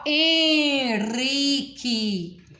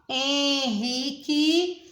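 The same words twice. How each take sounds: First: The R is a light tapped sound. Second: The R is a strong throaty sound. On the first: The speaker calls it wrong. "Aqui eu não posso falar" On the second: The speaker calls it right. "Porque primeiro ele deu a mão à consoante N"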